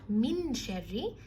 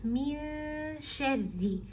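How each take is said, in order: First: The n is pronounced clearly before the sh. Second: The n is hidden and blends into the sh. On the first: The speaker calls it wrong. "It's not min sharri" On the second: The speaker calls it right. "it's min sharri"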